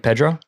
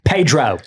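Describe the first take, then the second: First: The name is said with a Spanish accent. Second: The name is said with an American accent. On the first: "in the native tongue, it's probably closer to" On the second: "the very American way to say it"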